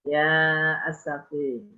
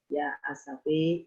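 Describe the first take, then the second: First: The final vowel leans slightly toward 'e'. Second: The final vowel leans strongly toward 'e'. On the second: "membaca imalah"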